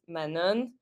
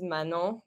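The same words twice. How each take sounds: First: The name is said with an American pronunciation. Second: The name is said with a French pronunciation. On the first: "Americans pronounce it Manon" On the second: "my name is Manon"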